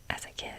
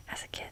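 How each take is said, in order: Both takes have the same delivery.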